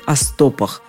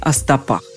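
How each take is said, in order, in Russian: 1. Ударение на первом слоге. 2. Ударение на последнем слоге. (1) "ударение во множественном числе с корня не уходит" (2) "ударение во множественном числе всегда на окончании"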